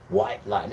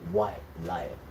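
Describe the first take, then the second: First: Said in the usual way. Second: Ominous low naming. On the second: Shown as a demonstration. Pointing out the ship's telling name to viewers, low and ominous. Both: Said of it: "Look at the name they call it as well".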